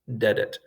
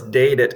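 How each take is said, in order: First: The first vowel is a short eh sound. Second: The first vowel is a long ah sound. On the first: The speaker calls it right. "just an eh" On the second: The speaker calls it wrong. "dadet is the wrong way to say it"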